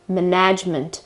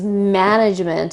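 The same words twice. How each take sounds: First: The stress is on the second syllable. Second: The stress is on the first syllable. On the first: The speaker calls it wrong. "shift the accent, to the second part of the word and say management" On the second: The speaker calls it right. "the accent is on the first syllable"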